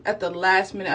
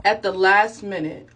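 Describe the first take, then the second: First: Said in the usual way. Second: Slowed, louder, leaning on "last"; stressing the deadline; emphatic slow. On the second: Shown as a demonstration. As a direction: draw out "At the last minute" with weight on last. Repeats phrase for emphasis.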